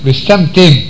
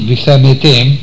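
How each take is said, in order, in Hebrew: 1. צליל ה-m סוגר הברה בלי תנועה. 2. אחרי צליל ה-m באה תנועה קצרה נוספת.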